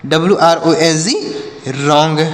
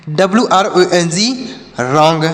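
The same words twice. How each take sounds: The two takes are said the same way.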